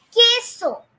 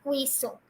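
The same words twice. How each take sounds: First: Queso as KEH-so, silent u; hard k and no w in queso, KEH-so; correct pronunciation. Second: Queso with a kw start, KWAY-so; mistaken pronunciation. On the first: Teacher giving students the correct Spanish, queso said KEH-so. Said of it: "It is queso". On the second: Teacher repeating the wrong form to reject it, queso as KWAY-so. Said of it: "It is not queso". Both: Shown as a demonstration.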